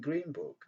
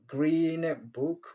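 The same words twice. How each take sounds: First: The end of green becomes a soft m. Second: The end of green stays a clear n. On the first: "les N se transforment en M faible" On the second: "au lieu de dire"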